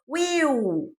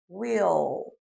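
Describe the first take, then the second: First: The word ends with a W-like vowel sound. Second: The word ends with a clear tongue-up L. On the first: The speaker calls it wrong. "A gente faz igual no português" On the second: The speaker calls it right. "O L vai lá para cima"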